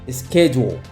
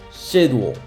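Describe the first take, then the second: First: It is said in an American accent. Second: It is said in a British accent. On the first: "aux États-Unis, on l'entend plus souvent" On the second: "Au Royaume-Uni, beaucoup de personnes le disent"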